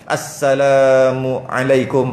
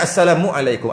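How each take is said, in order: First: There is a brief pause after assalamu. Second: The words are run together quickly without pause. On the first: The speaker calls it right. "berhenti kejap kat situ, saktah kejap" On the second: The speaker calls it wrong. "Kalau laju je"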